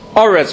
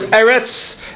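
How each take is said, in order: First: The word begins with an o vowel. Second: The word begins with an e vowel. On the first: The word closes the end of a verse. "you read it as oretz, with a komatz underneath the aleph" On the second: The word is not at the end of a verse. "So the word eretz"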